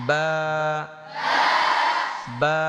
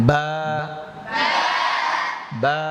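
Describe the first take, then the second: No difference in how they are said.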